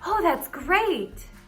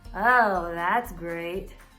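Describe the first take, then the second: First: It is said in an excited, enthusiastic tone. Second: It is said in a sarcastic, mocking tone. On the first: "That sounds exciting"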